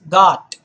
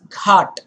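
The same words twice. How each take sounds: First: It starts with a plain, unaspirated g sound. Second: It starts with a breathy, aspirated gh sound. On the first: The speaker calls it right. "this word here is ghat" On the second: The speaker calls it wrong. "Do not pronounce it as ghat"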